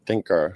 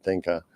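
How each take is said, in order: First: "thinker" said with a clear final r; corrected r sound. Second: "thinker" said as "thinkah" with no final r; Boston accent r-dropping. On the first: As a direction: end "thinker" on a full American r. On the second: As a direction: let "thinker" end in an open "ah", no r. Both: Real, not acted. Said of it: "Sorry about my Bas-, Boston accent".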